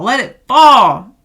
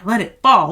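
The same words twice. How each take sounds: First: "let it fall" louder and slower, pitch lifted; loud declaration. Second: Whispered "let it fall", no voice at all. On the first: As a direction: proclaim it slowly and loud. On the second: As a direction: whisper it like a secret permission. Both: Acted. Tarot reading, urging to let go.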